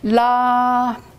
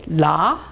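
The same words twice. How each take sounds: First: The pitch stays high and level. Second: The pitch rises from mid to high. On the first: "premier ton plat" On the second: "Deuxième ton"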